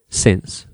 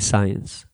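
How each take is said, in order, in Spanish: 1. La vocal es corta, como en 'sit'. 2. La vocal es larga, como en 'sigh'. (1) "be really careful" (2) "Lots of people say science, and that's a massive mistake"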